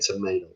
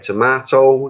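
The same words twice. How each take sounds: First: It is said with an American accent. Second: It is said with a British accent. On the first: "you say" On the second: "I say"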